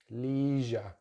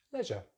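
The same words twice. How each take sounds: First: "leisure" as LEE-zhuh; American "leisure" with long ee; American pronunciation. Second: "leisure" as LEZH-uh; British "leisure" with short e; British pronunciation. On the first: Teacher contrasts accents, "leisure" as LEE-zhuh. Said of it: "They have a long vowel sound". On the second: Teacher contrasts accents, "leisure" as LEZH-uh. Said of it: "stick with the short vowel sound". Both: Shown as a demonstration.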